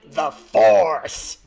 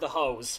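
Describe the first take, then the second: First: It is said with an American-style pronunciation. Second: It is said with a Japanese-style pronunciation. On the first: "he literally announced it in American accent" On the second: "in Japanese phonetics, pulse is read as uh, ho- as hose"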